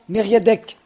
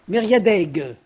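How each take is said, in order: First: The name ends with a hard k sound. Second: The name ends with a voiced g sound. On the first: The speaker calls it right. "c'est en haut que c'est bon" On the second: The speaker calls it wrong. "en breton, Mériadeg. C'est faux"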